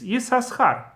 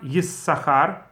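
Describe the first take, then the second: First: An extra s is heard before the ch. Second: There is no extra s before the ch. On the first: "Since there are two sins" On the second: "then it's not Yisachar"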